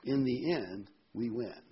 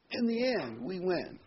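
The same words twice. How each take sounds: First: Said in the usual way. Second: "In the end" jumps much higher, "we win" rises with it; triumphant repeat. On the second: Shown as a demonstration. Preacher to congregation, repeating it higher in triumph. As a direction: lift "In the end" high, land "we win" in triumph. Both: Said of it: "keep this in mind".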